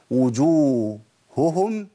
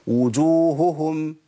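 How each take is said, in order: First: وجوههم with both ه sounds pronounced, wu-ju-hu-hum, slow; correct double h. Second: وجوههم with the ه sounds swallowed, like wujuhm; a deliberately wrong take of وجوههم; mock mistake. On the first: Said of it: "ده الصح". (وجوههم بهاءين واضحتين) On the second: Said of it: "طب الخطأ". (نطق خاطئ لوجوههم بضياع الهاء) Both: Shown as a demonstration.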